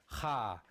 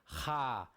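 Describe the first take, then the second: First: The syllable starts with an audible h. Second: The same.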